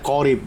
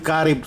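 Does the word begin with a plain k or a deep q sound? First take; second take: q sound; k sound. First: It begins with a deep back q sound. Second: It begins with a plain front k sound. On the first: The speaker calls it right. "harusnya korib ya, bukan kaf, kof" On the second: The speaker calls it wrong.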